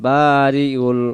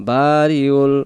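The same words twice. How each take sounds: The two takes are said the same way.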